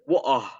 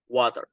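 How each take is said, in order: First: A British accent with both R and T dropped. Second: An American accent with the R and T sounded. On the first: "or even water. The T is also silent" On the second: "In the American English, you can only simply pronounce it like water"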